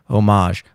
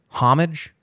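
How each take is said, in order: First: It is pronounced the French way. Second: It is pronounced the plain English way.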